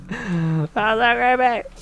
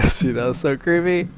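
First: Slow, high, eerie drawl on "so"; spooky voice. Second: Said in the usual way. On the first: Pretend. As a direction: drag out the so like a ghost story. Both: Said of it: "repeats in spooky voice".

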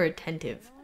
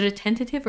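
First: Said in the usual way. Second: Attentive said as "uh-TEN-tuh-tiv"; extra syllable. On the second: Shown as a demonstration. Vlogger checking her word, attentive with four syllables. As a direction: add a "tuh" before the end of attentive. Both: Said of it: "Is it attentive or attentive?".

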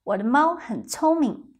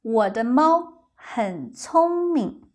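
First: 我的猫很聪明 at natural speed; quicker, everyday pace; faster. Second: Slow. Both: Shown as a demonstration.

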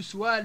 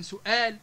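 First: سوال as swal, w glide; dropped hamza. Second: Said in the usual way. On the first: Shown as a demonstration. Teacher giving examples, سوال with w for hamza. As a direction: say سوال with no glottal stop. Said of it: "تحال إلى حرف علة". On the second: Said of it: "بدل من سؤال".

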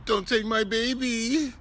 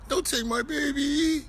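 First: Higher, whimpering mock plea; mock whiny plea. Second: Much higher, squeaky crybaby plea; exaggerated mock whine. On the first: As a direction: mimic a whining crybaby, pitched up. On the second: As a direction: push the mocking whine way up high. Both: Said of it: "You sound like a bitch".

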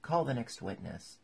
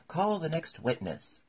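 First: Mildly relieved summons; easy, relieved royal order without shouting; great relief. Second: Loud, high royal order; raised, high-pitched summons; commanding call. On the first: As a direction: move things along, relieved. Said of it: "with an air of great relief". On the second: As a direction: call it out across the court. King gives order in court. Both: A narrator's reading.

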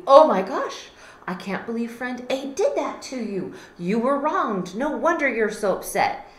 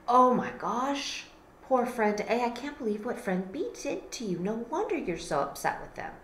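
First: Much louder, higher indignant sympathy; loud mock outrage on their behalf; outraged sympathy. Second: Lightly voiced sympathy, softening at the end; sympathetic friend. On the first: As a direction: take friend B's side with heat. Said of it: "you're thinking to friend B". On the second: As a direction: soothe a hurt friend, a bit higher. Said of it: "you're like".

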